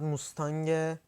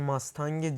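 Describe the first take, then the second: First: The first vowel sounds like 'oo'. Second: The first vowel sounds like 'a'. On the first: The speaker calls it wrong. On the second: The speaker calls it right.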